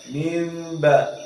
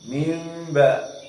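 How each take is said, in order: First: The word ends with an m before ba. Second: The word ends with an m before ba.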